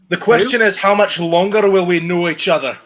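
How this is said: It is read in an imitated character accent.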